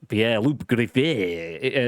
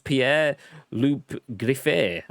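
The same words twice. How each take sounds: First: The name is said in a French accent. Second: The name is said in a plain English accent.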